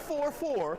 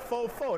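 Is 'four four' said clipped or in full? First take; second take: full; clipped. First: The two words are said fully and separately. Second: The two words are run together and clipped. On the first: It is the standard way of saying it. The speaker calls it wrong. "Not the four four" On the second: It is the local way he said it. The speaker calls it right. "That's how he said it"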